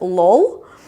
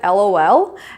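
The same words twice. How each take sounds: First: It is said as a single word. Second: It is spelled out letter by letter. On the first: The speaker calls it wrong. "you should not pronounce it as LOL" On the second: The speaker calls it right. "it has to be pronounced as an acronym, like as an alphabet"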